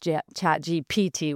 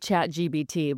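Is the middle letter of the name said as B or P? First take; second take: P; B. First: The middle letter is said as P. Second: The middle letter is said as B. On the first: The speaker calls it right. "but I know it's ChatGPT" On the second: The speaker calls it wrong. "I still say ChatGBT"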